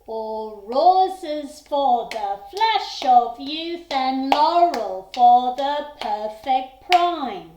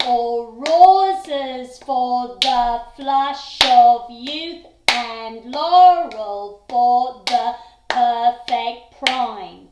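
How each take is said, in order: First: Loud, slow lilting chant of the poem in six eight; sway it like a dance in two big beats; six eight reading. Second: Loud, slow chant of the poem in four four; four four reading. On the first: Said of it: "Or is it going to be six eight?". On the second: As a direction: beat it out strongly on every accent. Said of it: "So, for example". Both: Shown as a demonstration.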